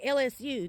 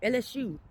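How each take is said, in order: First: It is said in a plain, standard pronunciation. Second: It is said the way older Louisianans say it. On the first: "they don't say L S U" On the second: "they say L S U"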